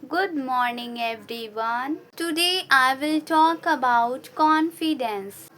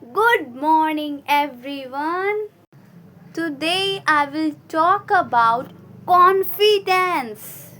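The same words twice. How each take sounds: First: The voice is flat and low in energy. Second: The voice is strong and full of energy. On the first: The speaker calls it wrong. "when the first student spoke" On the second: The speaker calls it right. "Then the second student came"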